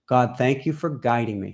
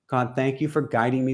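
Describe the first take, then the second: First: It is spoken slowly. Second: It is spoken at a normal pace.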